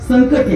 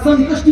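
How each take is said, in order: First: No 'sh' sound comes before the 't'. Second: A 'sh' sound comes before the 't'. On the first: The speaker calls it right. "संकटी आहे" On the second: The speaker calls it wrong. "आता संकटी आहे का संकष्टी आहे"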